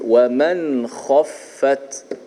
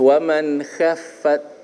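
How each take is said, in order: First: The kh sound is thick and heavy. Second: The kh sound is thin and light. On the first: The speaker calls it right. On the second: The speaker calls it wrong.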